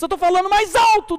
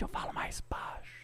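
First: Raised, higher-pitched loud voice; speaking louder. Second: Hushed, whispered fade for contrast; suddenly quieter. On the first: Trainer showing an audience volume modulation, suddenly louder. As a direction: swell up to a loud projected peak. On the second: Trainer showing an audience volume modulation, dropping to a whisper. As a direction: drop into a slow whisper. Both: Shown as a demonstration.

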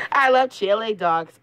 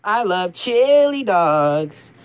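First: High cheerful cartoon hero; Sonic voice. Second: Slow, stretched-out cartoon voice; slow drawn-out Sonic. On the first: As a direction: say it bright and quick. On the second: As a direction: savour each word slowly. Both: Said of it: "I'm Sonic the Hedgehog".

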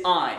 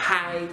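First: I as a clean "ah-ee" glide without h; correct I, no H. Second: Hi with a breathed H in front; wrong added H. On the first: Teacher gives learners the right version, clean I. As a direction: start I straight on the vowel. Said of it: "c'est I". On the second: Teacher shows learners the mistaken version, aspirated hi. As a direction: put an audible h before the diphthong, hi. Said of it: "C'est pas hi". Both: Shown as a demonstration.

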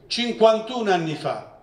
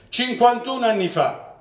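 Both takes have the same delivery.

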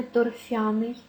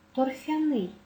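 First: Торфяний stressed торФЯний, before the ending; wrong stress. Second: Торфяний stressed торфяНИЙ; final-syllable stress. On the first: Teacher warning how it must never be said, wrong stress. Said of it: "ніяк не". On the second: Teacher giving the correct form, stress on last syllable. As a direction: land on НИЙ in торфяний. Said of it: "наголос на останньому складі". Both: Shown as a demonstration.

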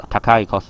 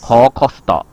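First: 塔卡cost said as takai kosuto, the kun-reading; 塔卡cost as takai kosuto, the beginner's reading; Japanese reading takai. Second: 口cost said as kō kosuto, the on-reading of 高; 口cost with 高 read kou, the formal way; Japanese reading kou. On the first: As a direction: read 塔卡cost with the plain word takai. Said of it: "也可以念塔卡". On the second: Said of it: "他可以念口啦". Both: Shown as a demonstration.

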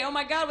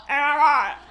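First: Said in the usual way. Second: Loud mock "Oh my God" with consonants lost in an open mouth; mouth hanging open. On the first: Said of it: "you say 'oh my God'". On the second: Texan comic mocking LA girls' accent, open-mouthed "Oh my God". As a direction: say "Oh my God" loudly, never closing your mouth. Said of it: "without closing your mouth".

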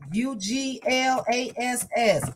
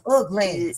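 First: U G L A S S spelled slowly letter by letter; spelling U G L A S S for viewers. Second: Said in the usual way. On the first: Shown as a demonstration. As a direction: spell U G L A S S out for the chat. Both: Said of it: "how you spell that".

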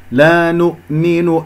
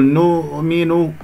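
First: لا نؤمن slowly, hamza shut sharply after nu; clean glottal stop. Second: نؤمن with the u dragged rounded into the hamza; wrongly smear the u across the stop in نؤمن; dragged damma. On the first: Teacher models the still hamza, clean stop. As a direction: cut نؤمن with a closed glottis. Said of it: "الهمزة بقفل الأوتار الصوتية". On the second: Teacher shows the error, dragged rounding. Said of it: "لا تسحب ضمة النون إلى الهمزة". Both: Shown as a demonstration.

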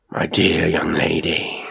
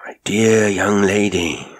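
First: Slow, unvoiced whisper, gently soothing; caressing and soothing. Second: Slow, unvoiced whisper, a little fuller; caressing and soothing. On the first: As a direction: whisper it slowly to calm a frightened girl. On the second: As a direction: whisper it again slowly, coaxing her to calm. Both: A narrator's reading. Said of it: "how caressing and soothing his manner was".

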